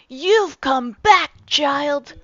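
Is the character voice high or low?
high. A higher voice like a young boy's. "We should give him the voice of a ten-year-old boy"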